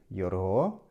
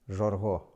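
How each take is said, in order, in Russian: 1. Слово начинается со звука y. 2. Слово начинается со звука zh. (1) "на ихиритском диалекте шесть будет йорго" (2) "на диалекте хангодаров шесть будет жорго"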